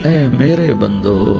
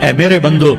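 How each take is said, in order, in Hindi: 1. यह गर्म, स्नेहपूर्ण लहजे में कहा गया है। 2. यह सपाट, बिना स्नेह के लहजे में कहा गया है।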